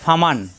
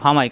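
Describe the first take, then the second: First: A clear 'n' sound ends the word. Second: The 'n' merges into a nasal 'y' sound. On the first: This is the word as it is written. The speaker calls it wrong. "এখানে আসছে ফামান" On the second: The n merges into the following letter. The speaker calls it right. "কিন্তু পড়তে হবে ফামাই"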